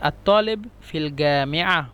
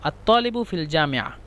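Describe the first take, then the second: First: It has the Egyptian hard 'g' sound. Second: It has the standard Arabic 'j' sound.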